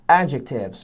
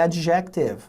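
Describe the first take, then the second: First: The stress is on the first syllable. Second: The stress is on the second syllable. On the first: The speaker calls it right. "primeira sílaba tônica" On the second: The speaker calls it wrong. "não é adjective"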